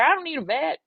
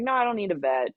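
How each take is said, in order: First: Put-on high, loud country accent; mock country accent, pitched up. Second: Said in the usual way. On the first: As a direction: slip firmly into the country caller's accent. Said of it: "I can't lose the accent now". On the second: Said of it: "I can't lose the accent".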